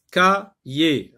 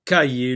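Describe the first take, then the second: First: "Cahier" broken into two separate syllables; split into syllables. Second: Said in the usual way. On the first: Shown as a demonstration. Teacher dividing the word for learners, "Cahier" syllable by syllable. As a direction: pause between the syllables of "Cahier". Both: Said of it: "On sectionne le mot en syllabes".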